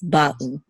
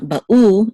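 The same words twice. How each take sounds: First: Ba'u stressed on ba, u lighter; accent the "ba" of ba'u; stress on first syllable. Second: Ba'u with the accent pushed onto the u; wrong final stress. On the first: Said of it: "this is where the accent mark is". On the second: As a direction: hit the "u" of ba'u, drawn out. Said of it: "It's not ba'u". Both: Shown as a demonstration.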